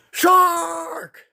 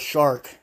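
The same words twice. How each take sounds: First: "Shark!" thrown up very high in mock terror; imitating a boy's high frightened scream of "Shark!"; imitated panicked yell. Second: Said in the usual way. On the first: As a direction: cry "Shark!" like someone is about to die. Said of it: "The way he yells "shark" is how you hear somebody yell". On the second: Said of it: "The way he yells".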